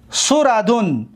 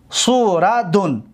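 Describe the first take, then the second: First: Said in the usual way. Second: سوردون drawn out as su, ra, dun; syllable by syllable. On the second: Shown as a demonstration. Teacher showing students the ninth pattern, سوردون slowly syllable by syllable. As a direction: sound out سوردون slowly, each syllable apart.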